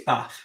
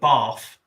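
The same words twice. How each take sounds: First: It is said in a plain northern accent. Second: It is said in a posh southern accent. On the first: This is the ordinary local way to say it. The speaker calls it right. "No, it's Bath" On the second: This is how a posh southern family says it. The speaker calls it wrong. "she's from a posh family that will call it Bath"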